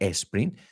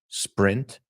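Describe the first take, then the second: First: An extra vowel sound comes before the s. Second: The word begins directly with the s sound. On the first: The speaker calls it wrong. "no sprint" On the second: The speaker calls it right. "you say sprint"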